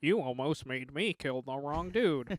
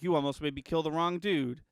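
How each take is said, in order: First: Slow mock Wakandan accent; imitating Black Panther, drawn out; Black Panther impression. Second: Weak Wakandan accent imitation; half-hearted Black Panther accent; Black Panther impression. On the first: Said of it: "the worst Black Panther impression". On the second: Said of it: "the worst Black Panther impression anyone has ever done".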